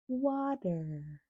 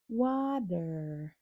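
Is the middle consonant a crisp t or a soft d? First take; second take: soft d; soft d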